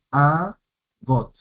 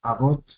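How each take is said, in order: First: "agot" in two separate syllables, a pause between; split into syllables. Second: Said in the usual way. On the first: Shown as a demonstration. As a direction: break "agot" apart as a... got, first vowel held. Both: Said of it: "Dos sílabas".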